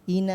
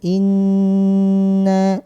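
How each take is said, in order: First: The n sound is short. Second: The n sound is held long. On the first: The speaker calls it wrong. "jangan bablas, jangan ina" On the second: The speaker calls it right. "Jadi ditahan dulu"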